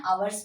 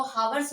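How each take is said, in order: First: आवर्स starting straight on the vowel, "aa-wars", with no H; silent H pronunciation. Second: हावर्स said with a sounded H at the start, "haa-wars"; wrong pronunciation with H. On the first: Teacher showing students the correct आवर्स with a silent H. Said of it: "आवर्स पढ़ते हैं". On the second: Teacher demonstrating the wrong way to students, हावर्स with a sounded H. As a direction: pronounce हावर्स with a clear breathy H before the vowel. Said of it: "इसको हावर्स नहीं पढ़ते हैं". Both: Shown as a demonstration.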